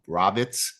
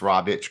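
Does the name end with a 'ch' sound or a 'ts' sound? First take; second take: ts; ch. First: The name ends with a 'ts' sound. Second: The name ends with a 'ch' sound. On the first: The speaker calls it wrong. "some people pronounce it" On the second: The speaker calls it right. "but it's Rovich, correct?"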